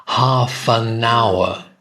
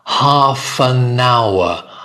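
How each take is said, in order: The two takes are said the same way.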